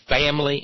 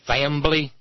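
First: It is said with no b sound. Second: It is said with a b sound.

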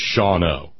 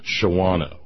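First: The middle A is silent, giving fewer vowels. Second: The middle A is pronounced, giving extra vowels. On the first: The speaker calls it right. "The name of the place in Wisconsin is Shawano" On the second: The speaker calls it wrong. "not Shawano. Too many vowels"

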